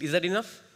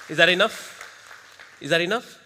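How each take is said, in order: First: Said in the usual way. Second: Louder call to the crowd; crowd prompt. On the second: Shown as a demonstration. Trainer pumping up the audience, loud call. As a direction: push the crowd for more noise. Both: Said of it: "Don't get satisfied".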